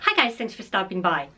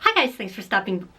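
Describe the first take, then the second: First: It is said in a calm, normal voice. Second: It is said in a shrill, loud voice.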